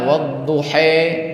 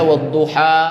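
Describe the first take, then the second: First: The final vowel is tilted toward 'e'. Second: The final vowel is a plain open 'a'. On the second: "ada yang dengan biasa"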